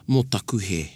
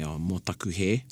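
First: It is said with a sincere, sorry tone. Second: It is said plainly, without added feeling.

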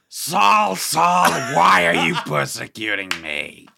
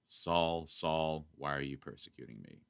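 First: It is said in a dramatic, booming voice. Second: It is said in a plain, unimpressive voice.

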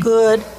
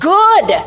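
First: It is said flatly, without excitement. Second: It is said excitedly, with an exclamation.

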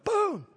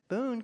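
First: The name is said forcefully. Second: The name is said softly.

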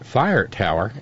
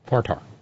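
First: Both words are said fully and separately. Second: The words are squeezed into one short word.

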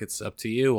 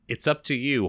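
First: It is read in a put-on weary operator voice. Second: It is read in an ordinary reading voice. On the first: "let's do a clean take" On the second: "So I should have read this in the voice of a beleaguered phone operator"

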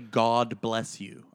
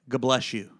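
First: Each word is said clearly and separately. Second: It is said fast and slurred, like a sneeze.

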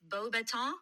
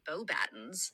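First: The name ends without an s sound. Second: The name ends with an s sound. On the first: The speaker calls it right. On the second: The speaker calls it wrong. "uncultured peasants would call it Beaubatons"

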